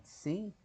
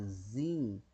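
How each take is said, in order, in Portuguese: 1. O nome começa com som de ts. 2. O nome começa com som de z. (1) "porque o Tsad tem som de T S, então Tsim" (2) "e não de Zim"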